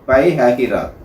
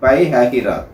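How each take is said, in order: First: The name is said as Pai Hyahiraat. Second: The same.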